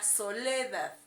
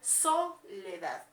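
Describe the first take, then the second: First: The stress is on the second syllable. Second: The stress is on the first syllable. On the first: "Si le ponemos en le" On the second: "mi sílaba tónica donde lleva la pronunciación es en so"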